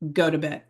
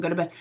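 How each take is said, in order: First: It is said in a stern, serious tone. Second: It is said in a relaxed, mild tone.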